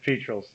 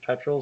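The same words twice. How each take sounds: First: It is pronounced the local Georgia way. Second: It is pronounced the British English way. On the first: "but in Georgia it's petrels" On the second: "in the original British English by James Edward Oglethorpe, I'm sure it was petrels"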